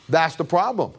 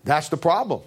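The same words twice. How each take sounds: The two takes are said the same way.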